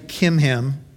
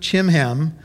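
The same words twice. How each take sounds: First: The name begins with a 'k' sound. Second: The name begins with a 'ch' sound. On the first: The speaker calls it right. "you don't pronounce the CH. His name is actually Chimham" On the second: The speaker calls it wrong. "He ran a combination business of chimney sweeping and selling ham"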